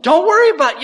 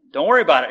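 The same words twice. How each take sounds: First: Very high, loud mock outburst; hammed-up indignant yelp; incredulous echo. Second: Said in the usual way. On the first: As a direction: throw the reassurance back in disbelief. Student throws the words back incredulously.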